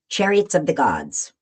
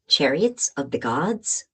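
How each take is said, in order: First: It ends with a falling, statement-like tune. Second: It ends with a rising, question-like tune.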